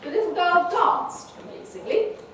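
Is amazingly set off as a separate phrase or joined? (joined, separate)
separate. Amazingly is split off in its own phrase. It was amazing that the girl danced at all. "in the first one, we have what's called a sentence"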